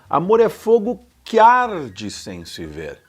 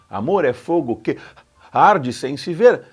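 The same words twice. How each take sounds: First: "Que" and "arde" run together into one syllable. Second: "Que" and "arde" are said as separate syllables.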